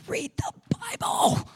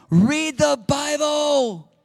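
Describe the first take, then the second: First: Breathy unvoiced hush; stage whisper. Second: Loud slow command. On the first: Preacher hushing the urge to read the Bible, whispered. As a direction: whisper it like a secret. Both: Shown as a demonstration.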